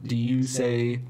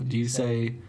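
No difference in how they are said.

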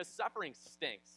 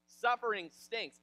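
First: Said in the usual way. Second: SUFFERING STINKS loud, higher and slow; emphatic repeat. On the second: Real, not acted. Preacher drives the point home, emphatic repeat. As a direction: hammer "Suffering stinks" word by word.

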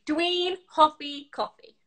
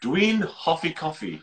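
First: Dwi'n hoffi coffee said slowly in Welsh; slow Welsh demo of Dwi'n hoffi coffee; Welsh sentence. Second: Dwi'n hoffi coffee slowly echoed; careful learner's repeat of Dwi'n hoffi coffee; hesitant Welsh echo, Dwi'n hoffi coffee. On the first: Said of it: "Siarad Cymraeg". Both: Shown as a demonstration.

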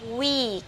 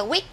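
First: "week" with a long drawn ee. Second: "week" cut short, like "wick"; mispronunciation. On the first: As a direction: stretch the vowel in "week". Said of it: "nó sẽ là y dài". (đọc "week" với i dài) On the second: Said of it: "các bạn hay đọc là week". (đọc sai "week" với i ngắn) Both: Shown as a demonstration.

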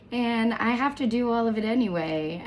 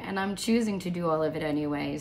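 First: "have" pushed higher and louder; stress on have. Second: "choosing" gently emphasized, the rest running on quickly; stress on choosing. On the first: Speaker admitting a heavy agenda, emphatic stress on "have". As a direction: lean hard on "have", high and loud. Reframing obligation as choice. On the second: Speaker reframing the agenda as a choice, stress on "choosing". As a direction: put the weight on "choosing", then move briskly through. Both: Real, not acted.

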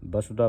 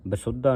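First: ਬਸੁਧਾ with a light single d, "ba-su-dha"; correct reading demonstrated. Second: ਬਸੁਧਾ with a tight short u and leaning "dd", "ba-SUD-dha"; wrong reading demonstrated. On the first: Teacher shows how to read it, ਬਸੁਧਾ as light "basudha". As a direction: say ਬਸੁਧਾ evenly, without doubling the d. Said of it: "ਬਸੁਧਾ ਪੜ੍ਹਨਾ ਹੈ". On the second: Teacher shows what not to read, ਬਸੁਧਾ as tight "basuddha". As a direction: say ਬਸੁਧਾ as "basuddha", middle closed. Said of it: "ਬਸੁਧਾ ਨਹੀਂ ਪੜ੍ਹਨਾ". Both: Shown as a demonstration.

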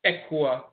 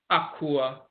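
First: "Ekua" with eh first, eh-KOO-ah; Fanti pronunciation. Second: "Akua" with ah first, ah-KOO-ah; Asante pronunciation. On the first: Lecturer recapping the shift, "Ekua" as eh-KOO-ah. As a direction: turn the first sound of "Ekua" to eh. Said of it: "a shift between the A and the E". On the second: Lecturer recapping the dialects, "Akua" as ah-KOO-ah. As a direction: begin "Akua" on open ah. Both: Shown as a demonstration.

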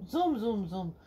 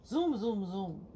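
Both takes have the same delivery.

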